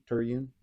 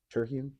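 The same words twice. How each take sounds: First: "Terhune" with the H nearly dropped; soft H. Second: "Terhune" with the H clearly sounded; hard H. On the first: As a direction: say "Terhune" as "Ter-yoon", gliding over the H. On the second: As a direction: say "Terhune" with an audible H after "Ter". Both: Shown as a demonstration. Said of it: "if it's a hard H".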